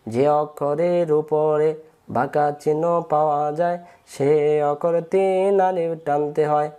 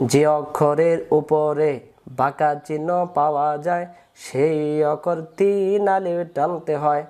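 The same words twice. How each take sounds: First: Rule repeated slowly. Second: Rule recited slowly. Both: Shown as a demonstration.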